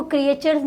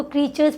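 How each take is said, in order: First: "क्रिएचर्स" with the silent letter sounded, kri-ay-chers; mispronounced "क्रिएचर्स". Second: "क्रीचर्स" in two syllables, kree-chers; correctly pronounced "क्रीचर्स". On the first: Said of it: "इसको क्रिएचर्स नहीं पढ़ते". ("क्रिएचर्स" का गलत उच्चारण, क्रि-ए-चर्स, 'ए' बोलकर) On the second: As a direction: say "क्रीचर्स" with a long ee and silent a. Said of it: "इसको क्रीचर्स पढ़ते". ("क्रीचर्स" का सही उच्चारण, क्री-चर्स, 'ए' silent) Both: Shown as a demonstration.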